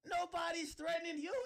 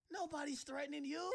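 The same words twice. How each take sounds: First: Higher, louder shouted repeat. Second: Said in the usual way. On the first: Real, not acted. Telling Desiree nobody threatens her, shouted again. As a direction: blow up on the repeat.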